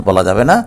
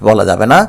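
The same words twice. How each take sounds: No difference in how they are said.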